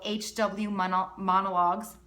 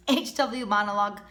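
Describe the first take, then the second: First: Real slip on "Mono-, Monologues", cut short then said whole; tongue-tied stumble. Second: Said in the usual way. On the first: Real, not acted. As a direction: break off mid-word and restart. (tripping over "Monologues") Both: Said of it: "can't speak today".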